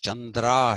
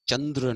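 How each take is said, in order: First: The name ends with a final 'ah' vowel. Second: The name ends on a consonant, without a vowel. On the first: The speaker calls it right. "मेरा नाम [name] है" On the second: The speaker calls it wrong. "चंद्र नहीं"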